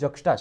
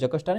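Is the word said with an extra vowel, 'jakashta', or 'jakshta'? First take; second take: jakshta; jakashta. First: The word is said as 'jakshta' without extra vowel. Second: The word is said as 'jakashta' with extra vowel. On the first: The speaker calls it right. "સાચું ઉચ્ચારણ જક્ષટા છે" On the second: The speaker calls it wrong. "જકષ્ટા નહીં"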